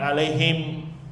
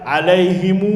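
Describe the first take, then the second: First: The word ends on the m consonant. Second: The word ends with an added u vowel. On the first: "bukan alaihim" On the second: "pakainya mu"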